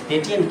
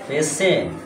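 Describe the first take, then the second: First: The middle consonant is a 't' sound. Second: The middle consonant is an 'sh' sound. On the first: The speaker calls it wrong. "পেটিয়েন্ট কেন হবে?" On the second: The speaker calls it right.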